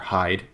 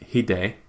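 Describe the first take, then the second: First: The name is said with an American pronunciation. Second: The name is said with a Japanese pronunciation. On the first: "the American version" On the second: "the Japanese version"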